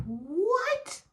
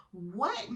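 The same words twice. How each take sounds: First: Very high, rising squeal of disbelief; hammed-up high shriek of a question; incredulous. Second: Said in the usual way. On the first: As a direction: shoot the pitch right up, baffled. Disbelief at the cheater's excuse.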